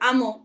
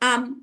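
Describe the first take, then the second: First: The final consonant is bounced with an echo vowel. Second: The final consonant stops cleanly with no echo vowel. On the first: The speaker calls it wrong. "এরকম বলে" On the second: The speaker calls it right. "এরকম বলতে হবে।"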